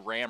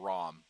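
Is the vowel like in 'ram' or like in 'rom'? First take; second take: ram; rom. First: The vowel is the short 'a' of 'cat'. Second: The vowel is the open 'ah' of 'father'. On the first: "R A M for Ram" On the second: "R A H M for Rom"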